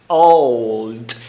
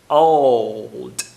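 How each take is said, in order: Both takes have the same delivery.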